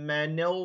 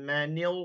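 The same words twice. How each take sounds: Both takes have the same delivery.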